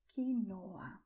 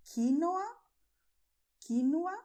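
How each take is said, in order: First: "quinoa" as kee-NO-a, middle drawn out; stress on NO. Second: "quinoa" loud, higher, as KEE-no-a; stress on first syllable. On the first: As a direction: lengthen the "no" in "quinoa". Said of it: "it's also very common to say quinoa". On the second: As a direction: hit the start of "quinoa" hard. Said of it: "You can pronounce it this way". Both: Shown as a demonstration.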